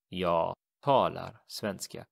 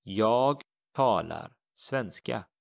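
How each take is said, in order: First: Said in the usual way. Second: Jag talar svenska, slow and clear; slow teacher demo of the Swedish; slow model sentence. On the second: Shown as a demonstration. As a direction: model it slowly for learners. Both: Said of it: "we simply say".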